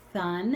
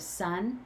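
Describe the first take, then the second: First: The word begins with a th sound. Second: The word begins with an s sound. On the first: A young child's normal speech error. "a three-year-old who says thun" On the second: The accurate target pronunciation. "instead of sun"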